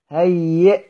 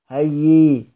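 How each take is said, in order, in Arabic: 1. الكلمة تنتهي بهمزة وقف. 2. الكلمة تنتهي بصوت الياء.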